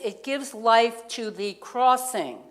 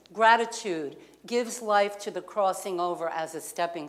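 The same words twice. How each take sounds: First: Each word laid down slowly, leaning on life; slow emphatic reading. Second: Said in the usual way. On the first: Shown as a demonstration. Preacher reads her note to congregation, slow and weighty. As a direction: read it out slowly like a written line, stressing "life". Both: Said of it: "what I wrote down is".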